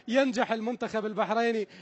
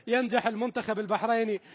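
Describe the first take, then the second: No difference in how they are said.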